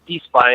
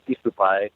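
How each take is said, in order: First: The name is said in two syllables, es-py. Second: The name is said in four syllables, e-su-pai. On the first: This is how it is said in America. "I think it's E- Espy in America" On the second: This is how it is said in Japan. "and then in Japan it's Esupai"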